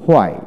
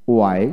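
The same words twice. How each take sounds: First: হোয়াই with an audible h first; হোয়াই starting on breathed hw; American h pronunciation. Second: ওয়াই starting on w, no h; ওয়াই with a plain w onset; British w pronunciation. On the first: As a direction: sound the h in হোয়াই. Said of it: "আমেরিকানে হ". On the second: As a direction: drop the h in ওয়াই. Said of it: "British উচ্চারণে". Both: Shown as a demonstration.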